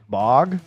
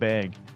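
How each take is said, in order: First: The vowel sounds open and back, like 'bog'. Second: The vowel sounds front and flat, like 'bag'. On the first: This is a guess at the East Coast way. "what is it pronounced in, like, uh, on the East Coast?" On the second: This is the speaker's own Midwest way. "I call it bag"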